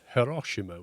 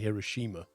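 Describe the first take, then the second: First: It is said in a Japanese-style pronunciation. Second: It is said in an American-style pronunciation. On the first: This is how Japanese speakers say it. "which is probably how they say it" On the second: This is how Americans say it. "which is probably an American version"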